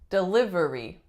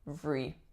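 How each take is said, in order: First: All four syllables are pronounced. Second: The third syllable is dropped, leaving three. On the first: "a lot of my clients say delivery" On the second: "we get rid of that third syllable"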